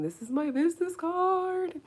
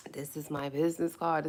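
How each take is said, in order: First: Excited squeal. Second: Said in the usual way. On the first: Real, not acted. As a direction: squeal it proudly, stretching the last word high. Showing off her new business card.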